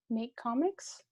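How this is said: It sounds hesitant and unsure.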